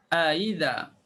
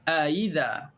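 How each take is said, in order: No difference in how they are said.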